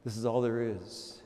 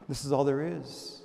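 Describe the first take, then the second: First: Fading hushed repeat; softer still. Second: Soft repetition. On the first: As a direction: let it fade to almost nothing. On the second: Repeated, softened. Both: Acted.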